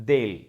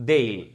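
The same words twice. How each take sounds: The two takes are said the same way.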